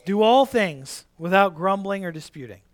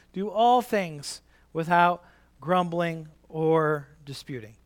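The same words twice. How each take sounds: First: Said in the usual way. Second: Each word spelled out slowly; slow teaching recital; slow, deliberate recitation. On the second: Shown as a demonstration. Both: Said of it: "We can repeat it".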